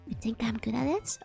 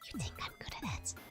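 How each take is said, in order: First: It is said in a normal voice. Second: It is whispered.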